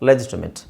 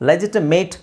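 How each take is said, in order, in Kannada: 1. ಕೊನೆಯ ಉಚ್ಚಾಂಶದಲ್ಲಿ ಚಿಕ್ಕ 'it' ಸ್ವರ ಇದೆ. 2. ಕೊನೆಯ ಉಚ್ಚಾಂಶದಲ್ಲಿ ಪೂರ್ಣ 'ate' ಸ್ವರ ಇದೆ. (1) "ಇಟ್ಸ್ ಲೆಜಿಟಿಮೇಟ್" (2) "ಲೆಜಿಟಿಮೇಟ್ ಅಂತ ಹೇಳ್ತೀವಿ ನಾವು"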